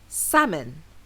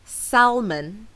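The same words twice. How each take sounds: First: The L sound is silent in the word. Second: The L sound is pronounced in the word. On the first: The speaker calls it right. "the correct pronunciation does not include the L sound" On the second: The speaker calls it wrong. "So it's not salmon"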